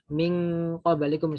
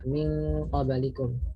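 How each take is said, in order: First: The nasal before q becomes an ng. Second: The nasal before q stays a faint n. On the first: The speaker calls it wrong. "memaksakan membaca nun sukun dan tanwin itu eng juga" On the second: The speaker calls it right. "nunnya tetap ada meskipun samar"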